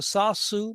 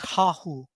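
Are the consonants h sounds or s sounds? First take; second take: s sounds; h sounds. First: Both consonants are s sounds. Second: Both consonants are h sounds.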